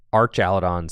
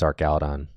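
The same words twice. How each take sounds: First: Archaludon said as arch-AL-uh-don; silly alternative pronunciation. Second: Archaludon said as ark-AL-uh-don; hard k in Archaludon; guessed pronunciation. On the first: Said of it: "Archaludon seems kinda silly". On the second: Host guessing at the name, Archaludon with a hard k. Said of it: "I don't actually know how to say Archaludon". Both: Shown as a demonstration.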